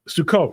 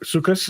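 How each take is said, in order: First: It is said in a non-Ashkenazi pronunciation. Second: It is said in the Ashkenazi pronunciation.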